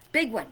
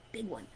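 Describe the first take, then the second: First: "Big one" said firmly at full voice; "Big one" repeated with strong stress; emphatic repeat. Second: "big one" said much softer, almost breathed out; "big one" whispered low and soft; hushed. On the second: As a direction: drop the voice right down on "big one". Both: Shown as a demonstration.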